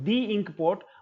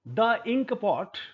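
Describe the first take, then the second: First: The article is said with a long ee vowel. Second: The article is said with a short schwa vowel. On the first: The speaker calls it right. "दी ink pot होना चाहिए।" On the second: The speaker calls it wrong. "गलत है ये pronunciation."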